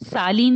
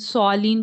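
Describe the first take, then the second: First: The first vowel is a plain, open a. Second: The first vowel is rounded and heavy. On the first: The speaker calls it wrong. "सालीन नहीं बोलते ना हम" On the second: The speaker calls it right. "सॉलीन बोलते हैं ना"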